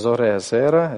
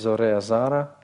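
First: The last word's first vowel is 'e'. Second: The last word's first vowel is 'a'. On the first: This is the ordinary, non-pausal form. "Только что было" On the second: This is the pausal form. "Паузальная форма"

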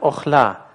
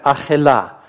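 First: It begins with o and has two syllables. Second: It begins with a and has three syllables. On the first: The vowel is read as a short kamatz with a silent shva. "И если мы прочитаем «охля»" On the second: The vowel is read as a long kamatz with a vocal shva. "Если мы прочитаем «ахела»"

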